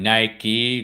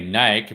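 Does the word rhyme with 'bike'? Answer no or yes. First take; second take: no; yes. First: The word does not rhyme with bike. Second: The word rhymes with bike. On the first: "that's the supposedly the right pronunciation of the brand Nike" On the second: "it's like saying bike or hike"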